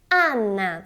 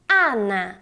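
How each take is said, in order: No difference in how they are said.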